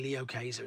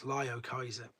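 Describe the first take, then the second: First: The first part sounds like 'Lee-oh'. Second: The first part sounds like 'Lie-oh'. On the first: The speaker calls it wrong. "You can't say Leo Kaiser" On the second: The speaker calls it right. "It's Lyo Kaiser"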